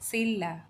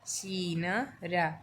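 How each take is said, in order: First: The middle is pronounced as a double l. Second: The middle is pronounced as n followed by r. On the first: The speaker calls it right. "हमें बोलना है सिल्ला" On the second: The speaker calls it wrong. "इससे सीन रा नहीं बोलना है"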